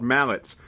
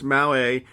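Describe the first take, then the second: First: The word ends with a clear t sound. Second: The word ends without a t sound. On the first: The speaker calls it wrong. "that's not the correct pronunciation" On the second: The speaker calls it right. "They're actually pronounced Mallet"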